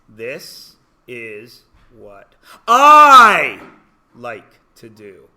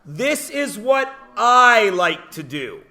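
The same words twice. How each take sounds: First: It is said slowly. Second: It is said at normal speed.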